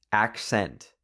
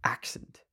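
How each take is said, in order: First: Said in the usual way. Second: "Accent" whispered, squeezed into one syllable; whispered test. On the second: Shown as a demonstration. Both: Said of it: "How did I make that into one syllable?".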